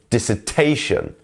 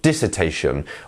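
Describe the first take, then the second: First: The main stress falls on the 'ta' syllable. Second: The main stress falls away from 'ta'. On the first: The speaker calls it right. "is dissertation" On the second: The speaker calls it wrong. "not dissertation"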